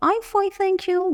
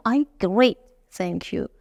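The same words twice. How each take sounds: First: Said in the usual way. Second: Great lifted, bright and rising; the better answer. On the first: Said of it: "به جای که بگم". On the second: Shown as a demonstration. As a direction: sell "I'm great" with a rising great.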